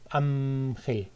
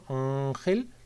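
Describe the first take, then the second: First: The n is made with both lips, like m. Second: The n is made far back in the throat. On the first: "convertirla en una bilabial" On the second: "hasta atrás del todo, hasta la campanilla"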